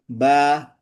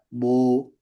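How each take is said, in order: First: The syllable is thin with a light vowel. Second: The syllable is thick with a dark vowel. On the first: The speaker calls it right. "Kalau sebelumnya dia istifal ba ya" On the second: The speaker calls it wrong. "jangan dibaca bu"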